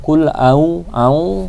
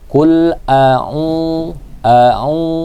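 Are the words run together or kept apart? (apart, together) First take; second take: together; apart. First: The words are run together into one stream. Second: The words are kept apart, not run together. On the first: The speaker calls it wrong. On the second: The speaker calls it right.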